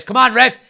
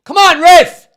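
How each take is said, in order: First: Loud appeal to the ref; pleading with the referee. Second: High, loud appeal to the ref; pleading with the referee. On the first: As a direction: call out to the referee. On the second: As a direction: yell it up at the referee. Shouting at the referee. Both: Real, not acted.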